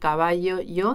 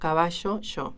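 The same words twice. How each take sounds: First: The y sound is plain, without any buzzing friction. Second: The y sound has a strong buzzing, zh-like friction. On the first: This is how most Latin American speakers say it. "en lugar de decir" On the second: This is how River Plate speakers say it. "ese ruido un poquito sonoro, o sea, que no deja pasar el aire del todo, es lo que se llama rehilamiento"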